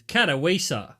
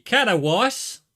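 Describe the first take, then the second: First: Katowice said the English way, stress on the third syllable; English pronunciation. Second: Loud, broad Australian take on Katowice; Australian accent. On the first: Streamer showing chat how English says it, anglicized Katowice. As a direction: say Katowice as an English reader would. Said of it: "in English is". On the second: Streamer showing how Australia would say it, mock Australian. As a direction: Katowice as Aussie "katta-wice", rising at the end. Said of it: "in Australia it'd be". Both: Shown as a demonstration.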